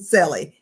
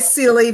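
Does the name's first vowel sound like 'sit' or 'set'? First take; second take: set; sit. First: The first vowel sounds like the one in 'set'. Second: The first vowel sounds like the one in 'sit'. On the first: This is the chosen way to say the name. "but we settle on Selly" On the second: This is how some people say the name. "Some people say silly"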